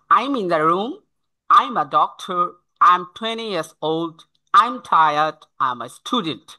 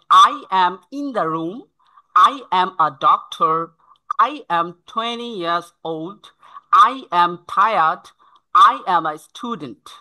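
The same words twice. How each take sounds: First: "I'm" as one syllable in each sentence; clear contractions. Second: Very slow, "I am" as separate words; corrected full forms. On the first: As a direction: list them with "I'm", falling on the last. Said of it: "এভাবে স্পষ্ট যখন হবে". (স্পষ্ট, সংক্ষিপ্ত "I'm") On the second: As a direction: model each word distinctly for learners. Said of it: "এই ভুলগুলো ঠিক করে নিতে হবে". (ধীরে, "I am" আলাদা করে স্পষ্ট উচ্চারণ) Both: Shown as a demonstration.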